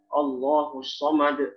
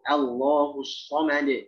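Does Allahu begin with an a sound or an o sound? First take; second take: o sound; a sound. First: Allahu begins with an o-like vowel. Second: Allahu begins with an a vowel. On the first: The speaker calls it wrong. "Kadang-kadang masih banyak bacanya Allah" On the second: The speaker calls it right. "Ada gimana?"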